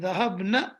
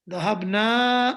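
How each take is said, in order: First: The final vowel is cut short. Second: The final vowel is drawn out long. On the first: A group of women went. "means they went. Female" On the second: The speakers themselves went. "it means we went"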